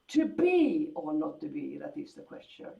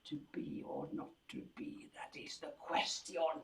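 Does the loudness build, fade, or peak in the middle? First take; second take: fade; build. First: It starts loud and then gets quieter. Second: It gets steadily louder toward the end. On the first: "That would be like a sforzando and then a diminuendo" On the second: "make it into a crescendo"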